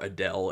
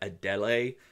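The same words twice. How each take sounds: First: The name is said the American way. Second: The name is said the non-American way.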